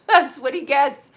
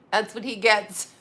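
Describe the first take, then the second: First: Said through a laugh, higher and louder. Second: Said in the usual way. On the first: Real, not acted. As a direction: laugh as you repeat it. Repeats punchline, laughing.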